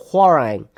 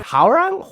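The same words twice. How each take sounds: First: "Hwoarang" falling low, as a statement; settled Hwoarang. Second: "Hwoarang" rising high, unsure; questioning Hwoarang. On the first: Settling on the Korean name, falling "Hwoarang". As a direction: say "Hwoarang" low with a firm fall. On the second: Unsure how to say the Korean name, questioning "Hwoarang". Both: Real, not acted.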